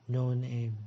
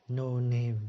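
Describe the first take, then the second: Both takes have the same delivery.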